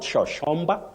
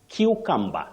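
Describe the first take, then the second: First: The word begins with a sh sound. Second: The word begins with a hard k sound. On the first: The speaker calls it wrong. "takes the sounding sho sho" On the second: The speaker calls it right. "you say cucumber"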